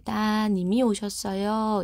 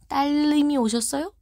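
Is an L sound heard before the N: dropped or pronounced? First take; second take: dropped; pronounced. First: No L sound is heard before the N. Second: An L sound is heard before the N. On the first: The speaker calls it right. "리을을 탈락시키고요" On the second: The speaker calls it wrong. "이렇게 얘기할 거예요, 제가? 아니죠"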